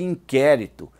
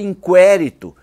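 First: The U sound after the Q is silent. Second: The U sound after the Q is pronounced. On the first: The speaker calls it right. "não se pronuncia o U" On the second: The speaker calls it wrong. "já ouvi o capitão pronunciar"

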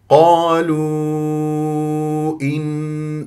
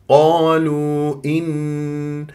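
First: The long vowel is held for four or five counts. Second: The long vowel is held for two counts. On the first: This follows the long-elongation reading style. "شاطبية، أربع خمس حركات جائز منفصل" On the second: This follows the short-elongation reading style. "قصر المنفصل"

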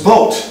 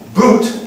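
First: The vowel is an 'oh' sound. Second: The vowel is a long 'oo' sound. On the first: This is how it was said before the vowel shift. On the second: This is how it is said today.

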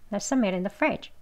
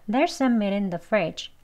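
First: The sentence is spoken very fast. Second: The sentence is spoken fast. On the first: "아주 빨리 하면" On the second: "다음 빨리 발음해서요"

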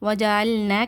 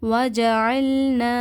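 First: The final vowel is cut short. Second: The final vowel is stretched for two counts. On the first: The speaker calls it wrong. "கிடையாது" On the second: The speaker calls it right. "2 கவுண்ட்ஸ் நீட்டி ஓதுங்க"

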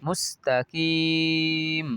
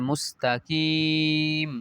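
Both takes have the same delivery.

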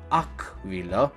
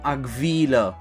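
First: The stress is on the first syllable. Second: The stress is on the second syllable. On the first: The speaker calls it right. "accentul este pe prima silabă" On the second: The speaker calls it wrong. "și nu"

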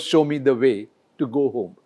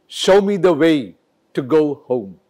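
First: The vowel in 'show' is one steady monophthong. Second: The vowel in 'show' glides as a diphthong. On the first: A native speaker would never say it this way. "It is never" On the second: This is how a native speaker says it. "He'll always have a diphthong, which is O. So for him, it is show"

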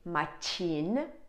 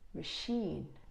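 First: The middle consonant is a ch sound. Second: The middle consonant is a sh sound. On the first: The speaker calls it wrong. "we don't say machine" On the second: The speaker calls it right. "but we say machine. So this is more like a sh sound"

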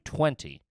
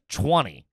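First: The word is said with a 't' sound. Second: The word is said with a 'ch' sound. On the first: "It would be 20 with a T. T-W" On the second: "I'm with a CH"

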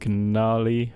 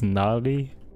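First: The initial G sound is pronounced. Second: The initial G sound is silent.

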